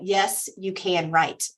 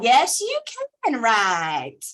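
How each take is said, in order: First: It is said in a milder, plainer accent. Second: It is said in a strong Southern drawl. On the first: "For those that need that uh, translated" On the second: "she has a very um, East Tennessee accent"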